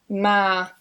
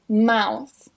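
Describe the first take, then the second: First: The vowel is a flat ah sound. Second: The vowel is a gliding ow sound. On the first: "changed to an ah sound" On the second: "the diphthong ow"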